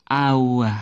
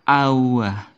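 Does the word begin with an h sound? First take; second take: no; no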